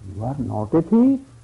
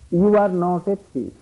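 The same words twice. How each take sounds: First: It is said sarcastically, implying the opposite. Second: It is said sincerely, as a plain statement.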